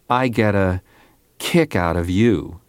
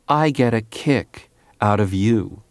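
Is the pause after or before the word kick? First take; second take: before; after. First: There is a pause before the word kick. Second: There is a pause after the word kick. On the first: "by inserting a little pause before the word kick" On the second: "Most singers pause after the word kick"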